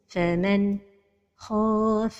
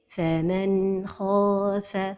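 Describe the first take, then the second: First: There is a break right after the n. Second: The n flows smoothly without bounce or break. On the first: The speaker calls it wrong. "La dernière erreur, c'est la pause" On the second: The speaker calls it right. "la prononciation correcte"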